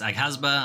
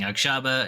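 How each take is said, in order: First: The middle consonant sounds like 'g'. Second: The middle consonant sounds like 'ksh'. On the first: The speaker calls it right. "It's apparent it's Aghasba" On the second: The speaker calls it wrong. "I've been saying wrong. I've been saying Akshaba"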